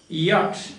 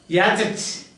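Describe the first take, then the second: First: It is said with one syllable. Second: It is said with two syllables. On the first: The speaker calls it right. "you know the pronunciation is yacht" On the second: The speaker calls it wrong. "the teacher pronounced it like that"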